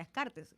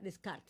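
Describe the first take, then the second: First: The name is read as Spanish, sounding every letter. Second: The name is said the French way, ending silent. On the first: The speaker calls it wrong. "no se pronuncia Descartes" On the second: The speaker calls it right. "se pronuncia Descartes"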